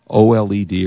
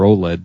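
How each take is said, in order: First: "O L E D" as four separate letter names; spelled-out pronunciation. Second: "oled" run together as one word, oh-led. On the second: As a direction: pronounce "oled" as a two-syllable word, not initials. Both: Shown as a demonstration. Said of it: "depending upon how you pronounce it".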